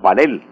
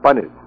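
First: The stress is on the second syllable. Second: The stress is on the first syllable. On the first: The speaker calls it right. "Pero lo correcto es panel" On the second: The speaker calls it wrong. "En Colombia nos hemos acostumbrado a pronunciar la palabra con acento grave"

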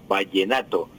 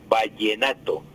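No difference in how they are said.

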